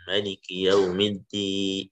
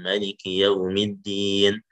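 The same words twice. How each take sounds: First: The final long vowel is held for six counts. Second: The final long vowel is held for four counts. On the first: "baru yang enam harokat" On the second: "Baru yang empat"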